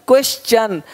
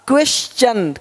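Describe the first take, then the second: Both takes have the same delivery.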